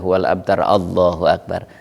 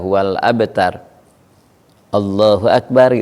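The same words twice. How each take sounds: First: No pause comes before 'Allahu akbar'. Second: A clear pause comes before 'Allahu akbar'. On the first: The speaker calls it wrong. "Enggak ada saktah tuh" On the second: The speaker calls it right. "setelah baca surah kepada mau ruku saja itu harus ada jeda"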